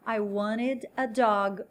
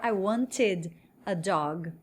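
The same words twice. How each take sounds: First: Slow, "wanted" as WAN-ed; silent T. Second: Slow, "wanted" as WAN-tid; T fully pronounced. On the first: Teacher models queria um cachorro, slow, "wanted" without T. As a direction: drop the T in "wanted", slowly. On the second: Teacher gives the alternative to learners, slow, crisp T in "wanted". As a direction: sound a clear T in "wanted", slowly. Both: Shown as a demonstration. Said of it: "esse T vai dar uma aliviada".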